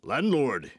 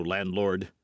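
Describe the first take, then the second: First: A sharp call for the landlord; masked rider calls for the landlord, crying out. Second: Said in the usual way. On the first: A narrator's reading. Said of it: "he cried".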